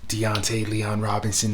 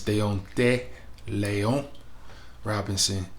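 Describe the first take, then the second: First: The name is said with Americanized pronunciation. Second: The name is said with its original pronunciation. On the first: The speaker calls it wrong. "That's the Americanized pronunciation" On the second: The speaker calls it right. "That's how you pronounce that"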